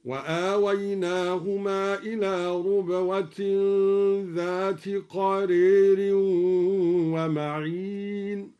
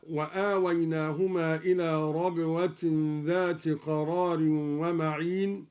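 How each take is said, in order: First: ربوة said rubwa with damma on ر, slow chant; ربوة with damma, measured. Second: Said in the usual way. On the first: Shown as a demonstration. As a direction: recite slowly, ربوة as rubwa. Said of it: "هكذا". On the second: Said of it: "بضم الراء ربوة".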